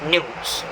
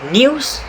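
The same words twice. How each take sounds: First: No y sound comes before the vowel. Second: A y sound comes before the vowel. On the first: "for the American pronunciation, your tongue moves directly from the n to the o sound" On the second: "For British pronunciation, your tongue will move slightly upward to produce the y sound"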